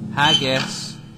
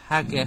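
First: The word ends with a plain s sound. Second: The word ends with a lisped th sound.

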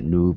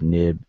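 First: The middle vowel is a long oo. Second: The middle vowel is a short i. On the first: "and not noob" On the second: "and not noob, nib"

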